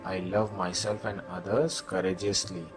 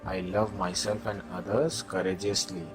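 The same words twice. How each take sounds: The two takes are said the same way.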